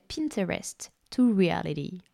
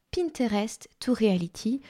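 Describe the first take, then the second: First: Put-on American English accent. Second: English words in a French accent; Franglais. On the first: Announcing her masterclass title, playful American accent. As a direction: say it in your finest American accent. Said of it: "Avec mon plus bel accent américain". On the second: Repeating her masterclass title, plain Franglais accent. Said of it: "en franglais". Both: Shown as a demonstration.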